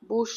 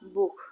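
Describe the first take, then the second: First: The word ends in a soft 'sh' sound. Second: The word ends in a harsh throaty 'kh' sound. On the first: The speaker calls it wrong. "বুশ না কিন্তু" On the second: The speaker calls it right. "উ এর পরে সে হা"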